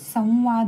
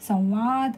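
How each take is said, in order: First: The nasal sound comes in the first syllable. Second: The nasal sound comes in the second syllable. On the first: The speaker calls it right. "संवाद होतं, म्हणजे स वरती अनुस्वार आला पाहिजे" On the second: The speaker calls it wrong. "संवाद असं नाही होत"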